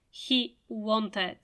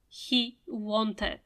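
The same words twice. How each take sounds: Both takes have the same delivery.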